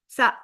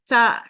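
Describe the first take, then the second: First: The word ends with a glottal catch. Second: The word ends without a glottal catch.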